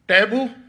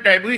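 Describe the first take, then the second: First: The word is said with an American accent. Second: The word is said with a British accent.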